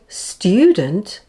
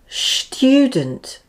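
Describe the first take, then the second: First: The word begins with a plain s sound. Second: The word begins with an sh sound. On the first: The speaker calls it right. "the word student becomes" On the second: The speaker calls it wrong. "It's a lazy tongue, so this is not the correct pronunciation of the word"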